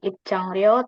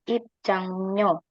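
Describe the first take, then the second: First: The last syllable begins with an r sound. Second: The last syllable begins with an n sound. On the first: The speaker calls it wrong. "Jadi bacanya bukan ipcangryo" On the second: The speaker calls it right. "tapi ipcangnyo"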